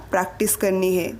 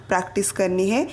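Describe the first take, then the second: No difference in how they are said.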